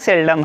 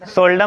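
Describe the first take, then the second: First: The first vowel sounds like 'eh'. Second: The first vowel sounds like 'oh'. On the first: The speaker calls it right. "सेल्डम है" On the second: The speaker calls it wrong. "सोल्डम नहीं"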